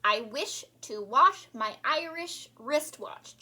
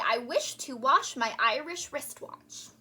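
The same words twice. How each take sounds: First: Even slower, careful repeat; slow, precise diction demo; slower tongue twister. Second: Slow, careful tongue twister; deliberate diction drill. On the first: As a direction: stretch out every word. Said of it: "let's do it again". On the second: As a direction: articulate each word slowly. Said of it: "And say". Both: Shown as a demonstration.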